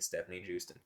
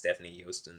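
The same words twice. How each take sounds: First: The surname sounds like the Texas city. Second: The surname sounds like 'Yosten'. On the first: This is how the spelling suggests it sounds. "because that's how it looks" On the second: This is the name's own pronunciation. "they aren't gonna say it's"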